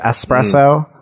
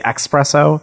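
First: The word is said with an s sound: espresso. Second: The word is said with an x sound: expresso. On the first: The speaker calls it right. "instead of espresso" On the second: The speaker calls it wrong. "when people say espresso instead of"

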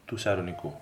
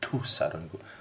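First: The first T is soft, light and dental. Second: The first T is hard and strongly released. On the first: The speaker calls it right. "our T is very sometimes very light, very dental" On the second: The speaker calls it wrong. "You don't say tu saroniku"

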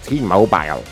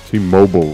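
First: It is said with a non-American accent. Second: It is said with an American accent.

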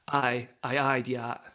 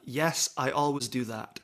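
First: It is said in an Aberdonian Scottish accent. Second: It is said in a standard accent.

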